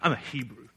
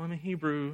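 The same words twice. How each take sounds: First: The voice sounds proud and boastful. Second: The voice sounds timid and unsure. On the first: He is boasting about who he is. The speaker calls it right. "He's boasting" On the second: He is embarrassed about who he is. The speaker calls it wrong. "Not like, oh"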